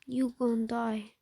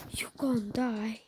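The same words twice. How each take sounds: First: Said in the usual way. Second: Slow whispered "You gon' die.". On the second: Shown as a demonstration. Gamer whispers a doom threat to himself, slow. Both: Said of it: "You gon' die".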